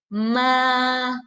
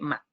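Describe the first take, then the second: First: The pitch stays high and level. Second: The pitch is short with no movement. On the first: "ese es sostenido" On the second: "Es sin movimiento, es seco"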